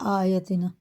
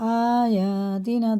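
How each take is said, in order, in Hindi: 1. य ध्वनि के बाद का स्वर छोटा है। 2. दोनों लंबे स्वर बराबर खींचे जाते हैं। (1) "आयतिना पढ़ते हैं ना, वो गलत है" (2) "दोनों बराबर खींचेंगे"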